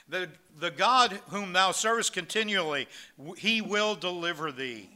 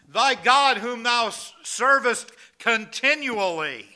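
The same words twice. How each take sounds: First: Said in the usual way. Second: Loud, slow, high, every word weighed; booming royal proclamation. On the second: Acted. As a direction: proclaim it like a king over the den. King addresses Daniel in den.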